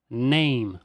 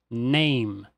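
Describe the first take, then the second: No difference in how they are said.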